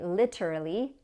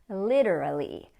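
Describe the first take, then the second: First: The middle T is pronounced as a clear T. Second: The middle T sounds like a quick D. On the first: "if you prefer to say literally, that's okay too" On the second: "So that T sounds like a D"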